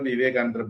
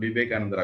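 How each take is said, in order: First: The name begins with a v sound. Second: The name begins with a b sound.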